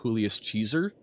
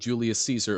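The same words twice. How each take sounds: First: Caesar begins with a ch sound. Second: Caesar begins with a soft s sound. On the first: "the C is more of a like ch" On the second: "instead of Julius Caesar"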